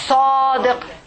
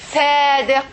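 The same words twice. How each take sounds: First: The first S is heavy, using the whole mouth. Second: The first S is light, with little mouth tension. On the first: The speaker calls it right. "I say, sadiq, heavy" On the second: The speaker calls it wrong. "I didn't say"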